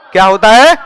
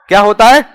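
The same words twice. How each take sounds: The two takes are said the same way.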